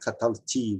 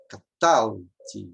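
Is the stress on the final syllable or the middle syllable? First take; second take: final syllable; middle syllable. First: The stress falls on the final syllable. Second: The final syllable is weak, stress on the middle. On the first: "Não é catalti, mas pode ser" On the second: "Não é forte, não, ela é fraca"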